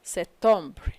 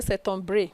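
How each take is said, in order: First: Septembre stopping on "br", no vowel after; silent final E. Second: Septembre with the final E sounded, "septom-bray"; mispronounced septembre. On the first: Teacher models ignoring the E, septembre ending on a soundless "br". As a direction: let septembre end on its consonants. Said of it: "you don't pronounce it". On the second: Teacher shows a mistake, septembre ending in a sounded E. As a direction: add a voiced vowel to the end of septembre. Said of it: "You don't say septembre". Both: Shown as a demonstration.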